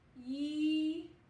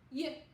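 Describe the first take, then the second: First: The sound is held out with a vowel. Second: The sound is short with no vowel. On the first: The speaker calls it wrong. "holding out the Y and going yee, but we were actually adding an E sound at the end" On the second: The speaker calls it right. "really short and fast"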